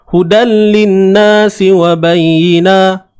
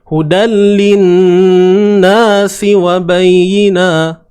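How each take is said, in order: First: The n is said without a held nasal hum. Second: The n is held with a nasal hum. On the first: The speaker calls it wrong. "contoh tak dengung" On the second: The speaker calls it right. "Sepatutnya kena dengung. Contoh macam ni"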